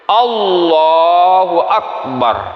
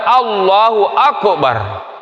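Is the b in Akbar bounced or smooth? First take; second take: smooth; bounced. First: The b in Akbar is said without a bounce. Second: The b in Akbar has an echoing bounce. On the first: The speaker calls it right. "kalimatnya yang betul Allahu Akbar" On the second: The speaker calls it wrong. "Kadang-kadang kita dengar Allahu Akbar, terutama muazzin"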